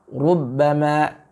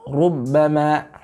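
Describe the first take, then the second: No difference in how they are said.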